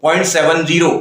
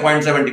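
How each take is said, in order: First: point सेवन ज़ीरो, each digit said separately, seven then zero; correct point seven zero. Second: point सेवेंटी, the two digits read together as the number seventy; wrong reading seventy. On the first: Teacher corrects the mistake by reading the digits separately. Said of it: "point सेवेंटी नहीं हो". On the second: Teacher imitates the common student mistake, reading it as seventy. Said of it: "बहुत सारे लोग सेवेंटी बोलते हैं". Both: Shown as a demonstration.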